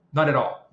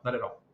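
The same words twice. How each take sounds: First: First "Not at all" louder, with weight on "Not"; emphatic denial. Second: "Not at all" repeated quieter, falling away; softer echo. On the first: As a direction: stamp out the myth firmly on "Not". Firm denial of a misconception. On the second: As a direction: let the repeat drop to a quiet settled close. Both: Real, not acted.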